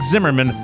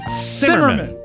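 First: The name begins with a buzzing z sound. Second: The name begins with a hissing s sound. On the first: The speaker calls it wrong. "not Zimmerman" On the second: The speaker calls it right. "Like putting a nice pot on the stove and letting it come to a simmer"

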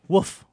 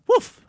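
First: It is a half-hearted woof in a plain voice. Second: It is a woof in a put-on female British voice.

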